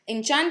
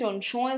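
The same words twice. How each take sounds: First: It is said with a South Asian accent. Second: It is said with a French accent. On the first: "Enchant is more desi accent" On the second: "Enchant is more Parisian"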